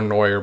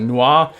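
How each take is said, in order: First: The name is pronounced with an anglicized sound. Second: The name is pronounced with a French sound. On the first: The speaker calls it wrong. "I used to call her Noir, but I know that's not how you pronounce it" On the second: The speaker calls it right. "But Noir, it's French"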